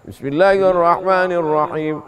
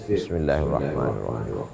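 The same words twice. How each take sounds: First: It is recited aloud, clearly audible. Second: It is recited quietly, nearly silent.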